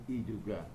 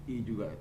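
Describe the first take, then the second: Both takes have the same delivery.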